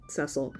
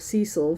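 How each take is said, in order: First: The name is said the British way. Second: The name is said the American way. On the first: "since it's a U K cake, I'll say Cecil" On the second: "Cecil for uh, the American pronunciation"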